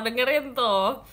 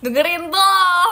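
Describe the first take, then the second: First: Said in the usual way. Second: Louder and slower, stressing tuh; emphatic command. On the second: Shown as a demonstration. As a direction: drag out "Dengerin tuh" with a high, loud push. ("Dengerin tuh" diucapkan lambat, keras dan tinggi) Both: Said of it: "Katanya kakaknya gitu loh".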